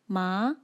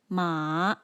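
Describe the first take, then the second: First: The pitch rises upward. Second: The pitch falls and then rises. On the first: "rises upwards like this" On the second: "falls and then rises"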